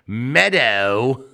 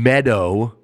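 First: The word is said in an imitated character accent. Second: The word is said in a normal voice.

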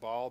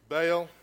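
First: It uses the pronunciation the speaker grew up with. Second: It uses the Americanized English pronunciation. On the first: This is the older, familiar way of saying the name. "We grew up saying Baal" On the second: This is how the name is said in American English. "it came to America and learned real English, so Baal"

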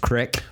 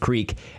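First: The word has a short 'ih' vowel. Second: The word has a long 'ee' vowel. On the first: "some of the older generation here in the great state of Oklahoma pronounce the word creek as crick" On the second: "pronounce the word creek"

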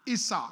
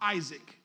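First: The name is given a non-English pronunciation. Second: The name is given the usual English pronunciation.

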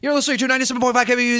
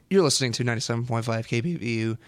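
First: It is said at a faster pace. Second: It is said at a slower pace.

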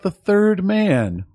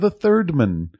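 First: It is said in an ordinary speaking voice. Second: It is said in an imitated narrator voice.

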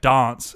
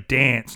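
First: It is said in a New Zealand accent. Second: It is said in a broad Australian accent. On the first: The speaker calls it wrong. "not dance every time" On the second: The speaker calls it right. "You're gonna have to say dance"

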